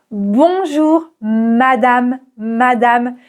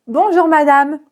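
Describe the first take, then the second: First: Very slow "Bonjour madame", open A in madame. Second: Said in the usual way. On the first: Shown as a demonstration. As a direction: stretch madame with a wide open A. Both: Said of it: "C'est vraiment un A ouvert".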